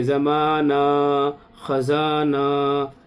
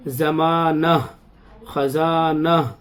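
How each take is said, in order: First: ज़माना and ख़ज़ाना with the last vowel dragged out long and slow; wrong drawn-out ending. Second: ज़माना and ख़ज़ाना closed with a short light ha; correct final ha. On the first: Teacher showing students the mistaken long ending. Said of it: "गलत हो जाएगा". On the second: Teacher giving the correct reading before the wrong one. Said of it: "ऐसे नहीं पढ़ेंगे". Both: Shown as a demonstration.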